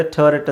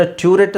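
First: ಟರ್ರೆಟ್ opening with an open "tuh". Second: ಟ್ಯೂರೆಟ್ opening with a "tyoo" glide. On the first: Teacher gives second option ಟರ್ರೆಟ್, opening "tuh". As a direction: say ಟರ್ರೆಟ್ as "tuh-ret", no y-glide. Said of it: "ಟರ್ರೆಟ್ ಅಂತಲೂ ಹೇಳ್ತಾರೆ". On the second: Teacher gives alternative ಟ್ಯೂರೆಟ್, opening "tyoo". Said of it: "ಟ್ಯೂರೆಟ್ ಅಂತಲೂ ಹೇಳ್ತಾರೆ". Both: Shown as a demonstration.

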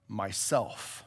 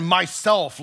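First: Low, soft solemn voice; very deep and low. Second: Louder, clear happy declaration. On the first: Lion answering who he is, very deep and low. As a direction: drop it deep and quiet. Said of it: "very deep and low". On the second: Lion naming himself again to the boy, loud and clear. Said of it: "loud and clear and happy". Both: A narrator's reading.

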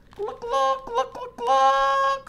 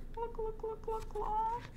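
First: Very high clucking hen voice. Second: Very high, soft clucking hen; sleepy hen cluck. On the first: Reader voices Hen clucking in the storm, very high. Hen's line in story. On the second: Hen clucks good night, very high and soft. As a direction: cluck softly like a drowsy hen. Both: Acted.

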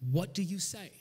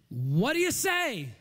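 First: Said in the usual way. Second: Slow, stretched call swooping high; challenging call. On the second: Real, not acted. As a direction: throw it out slowly to the whole crowd. Challenges congregation to answer.

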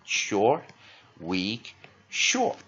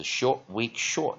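First: "short，weak，short" beaten out slowly, with pauses; short-weak-short rhythm. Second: Said in the usual way. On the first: Shown as a demonstration. Teacher showing the vowel pattern, "short，weak，short" slowly separated by pauses. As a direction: space out "short，weak，short" one beat at a time. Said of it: "是一个弱母音在中间". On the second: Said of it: "它是short，weak，short的组合".

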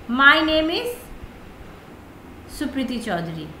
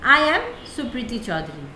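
First: Every word drawn out slowly; slow deliberate example. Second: Said in the usual way. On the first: Shown as a demonstration. Teacher slowly models an introduction line for students, drawn out. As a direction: spell it out slowly for the class. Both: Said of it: "जैसे देखिए".

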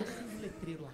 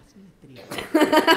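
First: Very soft, low instruction; hushed cue. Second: Louder, slow insistent order; impatient order. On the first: Quietly telling the man to light the sign, hushed. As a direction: give the cue under your breath. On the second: Urging the man to light the sign, impatient. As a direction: press the cue hard, drawn out. Same cue, losing patience. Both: Acted.

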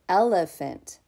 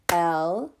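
First: Said in the usual way. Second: L-E-phant in three beats, EL, E, PHANT with gaps; split into syllables. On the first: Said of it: "Let's clap the syllables we hear". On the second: Shown as a demonstration. Teacher leading preschoolers, L-E-phant broken into three clapped syllables. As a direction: clap out L-E-phant one syllable at a time. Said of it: "clap the syllables we hear in the word elephant".

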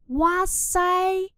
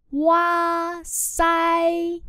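First: Said in the usual way. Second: Kéo dài chữ sai, đọc chậm rõ; long drawn sai. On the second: Shown as a demonstration. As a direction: stretch out sai slowly. (đọc kéo dài chữ sai)

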